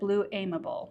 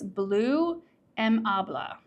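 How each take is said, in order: First: Amable is said with a different, guessed pronunciation. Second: Amable is said with the listed pronunciation. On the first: "I would have said Blue Amable" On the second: "they have a phonetic spelling for in the description"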